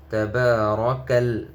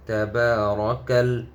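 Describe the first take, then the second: No difference in how they are said.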